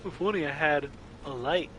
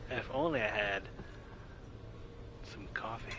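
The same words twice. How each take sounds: First: Mocking. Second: Quiet wistful whisper of "coffee"; mock the line, whispering the end; whispered parody. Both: Shown as a demonstration. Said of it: "I don't like the wording".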